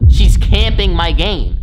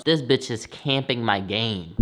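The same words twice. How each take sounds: First: Higher, much louder, slow complaining wail; loud slow outraged moan about his game; exasperated yell. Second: Said in the usual way. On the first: Retold or imitated. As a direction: whine it out, drawn long and loud. Retelling the aunt taking his game.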